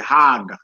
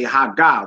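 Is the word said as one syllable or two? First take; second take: one; two. First: It is said as one syllable, hag. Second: It is said as two syllables, ha-ga. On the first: The speaker calls it right. "We say hag" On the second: The speaker calls it wrong. "we don't say ha ga"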